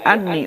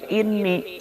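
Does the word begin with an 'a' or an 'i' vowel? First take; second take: a; i. First: The word begins with an 'a' vowel. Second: The word begins with an 'i' vowel. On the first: The verb for 'he said' is dropped entirely. "anni dibaca hamzahna patah" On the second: The verb for 'he said' is silently implied. "bil kasri inni"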